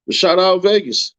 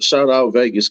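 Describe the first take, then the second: First: Higher, slower, sing-song Vegas; stretched-out sing-song shoutout; hyped shoutout. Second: Said in the usual way. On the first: Real, not acted. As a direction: draw out Vegas like a cheer.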